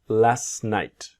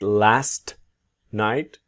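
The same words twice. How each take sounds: First: The T at the end of 'last' is silent. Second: The T at the end of 'last' is pronounced. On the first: "you will see the silent T" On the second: "not always last night"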